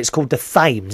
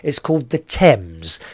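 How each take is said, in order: First: Thames begins with a th sound. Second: Thames begins with a plain t sound. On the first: The speaker calls it wrong. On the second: The speaker calls it right.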